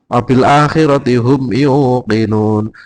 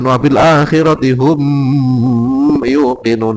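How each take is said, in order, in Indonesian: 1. Kata 'hum' pendek dan terpisah dengan jelas. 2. Kata 'hum' dipanjangkan dan menyambung. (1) "humnya pendek karena idhar safawi"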